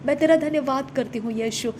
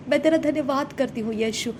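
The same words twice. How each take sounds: The two takes are said the same way.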